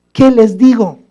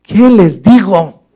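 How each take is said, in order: First: Higher, more urgent repeat of the question; the second take, climbing into desperation; desperate plea. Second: Slow, drawn-out worried plea to God; the first, slower take of a lost question; anxious plea. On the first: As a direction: plead it again, higher and more pressed. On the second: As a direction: ask it slowly, as if at a loss. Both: Retold or imitated. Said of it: "Moisés estaba así".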